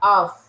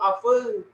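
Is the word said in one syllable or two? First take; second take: one; two. First: It is said as one short syllable. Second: It is said with an extra second syllable. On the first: The speaker calls it right. "cara bacanya A sama F aja" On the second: The speaker calls it wrong. "Bukan aful aful"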